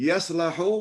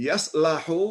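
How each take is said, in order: No difference in how they are said.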